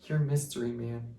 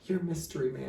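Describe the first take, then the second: First: Said in the usual way. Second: A lightly voiced sweet girlfriend, higher and softer; sweet imitation. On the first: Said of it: "She was like". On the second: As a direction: coo it like a tender reveal. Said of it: "the real sweet face".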